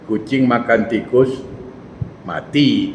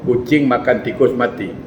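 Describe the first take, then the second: First: The sentence is read slowly and drawn out. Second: The sentence is read at an ordinary, even pace. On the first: The cat is the one that died, not the rat. "kalau saya baca pelan, nanti lain" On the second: The cat ate a dead rat. "Saya baca, ... Jelas"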